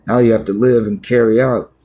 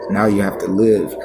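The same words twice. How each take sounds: First: "Now you have to live" pushed louder, hitting "you"; louder insistent repeat. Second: Said in the usual way. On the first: Shown as a demonstration. Pastor pressing the point home to himself, louder stress. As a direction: lean hard into "you" and "live".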